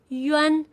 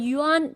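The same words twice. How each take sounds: First: The middle vowel sounds like 'eh' in 'bed'. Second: The middle vowel sounds like 'ah'. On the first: The speaker calls it right. "The correct one is yuan. A here is pronounced like e, like bed" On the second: The speaker calls it wrong. "a here is not pronounced as ah. It's not yuan. That's wrong"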